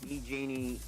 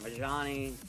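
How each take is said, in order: First: It is said as two words, me plus Janie. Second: It is said as one exotic-sounding word. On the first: The speaker calls it right. "I get her handle. It's me, Jane B" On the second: The speaker calls it wrong. "I was pronouncing it Majani. I thought it was exotic"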